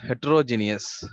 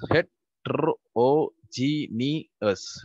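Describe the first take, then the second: First: Said in the usual way. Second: Drawn out syllable by syllable, very slowly; teacher spelling out Heterogeneous slowly for the class; slow syllabified. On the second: Shown as a demonstration. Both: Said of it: "we are going to syllabify the following words".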